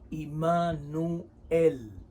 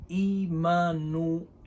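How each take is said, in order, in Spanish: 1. El nombre se dice en su forma hebrea. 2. El nombre se dice en su forma hebrea.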